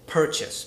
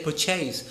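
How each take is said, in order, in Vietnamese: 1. Trọng âm nằm ở âm tiết thứ nhất. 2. Trọng âm nằm ở âm tiết thứ hai. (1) "I say purchase, because the stress is on the first syllable" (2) "I don't say purchase"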